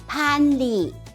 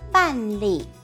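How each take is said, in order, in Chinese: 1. 第一个辅音气流很强。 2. 第一个辅音没有气流。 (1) "客语念送气的p，p 按判" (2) "华语办是念不送气的b，b 按办"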